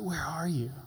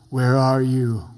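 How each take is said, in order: First: The question sounds warm and tender. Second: The question sounds harsh and scolding. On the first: The asker lovingly invites the listener back. The speaker calls it right. "Or is it the loving heart of a father?" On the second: The asker is about to punish the listener. The speaker calls it wrong. "You really blew it this time. Time to come get your three spanks"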